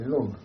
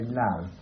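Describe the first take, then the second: First: It is said with a Yorkshire accent. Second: It is said with a southern English accent.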